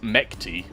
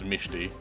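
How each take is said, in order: First: The middle consonant is a k sound. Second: The middle consonant is an sh sound. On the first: "if you try to say it how it's spelt" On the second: "the pronunciation for what I heard is Mishti"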